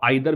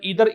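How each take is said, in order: First: The first vowel sounds like 'eye'. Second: The first vowel sounds like 'ee'.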